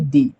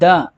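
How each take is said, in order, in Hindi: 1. यह शब्द लंबे 'ee' स्वर पर खत्म होता है। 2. यह शब्द छोटे 'uh' स्वर पर खत्म होता है। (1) "न कि दी" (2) "इसको प्रोनाउंस किया जा रहा है द"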